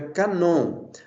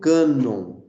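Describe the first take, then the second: First: The stress is on the last syllable. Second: The stress is on the first syllable. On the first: This is the original Greek pronunciation. "Mas a pronúncia no grego é canon" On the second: This is the adapted form used in Portuguese. "foi transliterado para nós como cânon"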